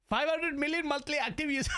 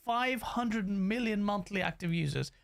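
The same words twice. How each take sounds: First: It is said in a put-on imitating voice. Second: It is said in the speaker's normal voice.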